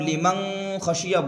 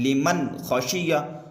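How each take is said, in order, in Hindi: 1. n की आवाज़ निगल ली जाती है और मुश्किल से सुनाई देती है। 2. n की आवाज़ साफ़ और स्पष्ट बोली जाती है। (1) "नून साकिन की आवाज़ छुप जा रही है" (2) "छुपाना नहीं है बल्कि दिखाना है"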